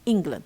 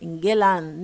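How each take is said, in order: First: The second syllable is weak and unstressed. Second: The second syllable is strong and stressed. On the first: The speaker calls it right. "شايفين اللي حصل للاند" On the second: The speaker calls it wrong. "لما بنعمل ستريس غلط"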